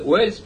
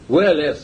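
First: No vowel is heard between the L and S. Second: A vowel is heard between the L and S. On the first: This is how it is read in English. "по английской фонетике он читается Уэльс" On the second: This is how it reads letter by letter. "если мы просто по буквам прочитаем"

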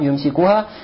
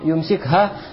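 First: A short u vowel comes before -ha. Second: No vowel comes before -ha. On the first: "Можно его произнести с рафхам" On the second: "с джазмом"

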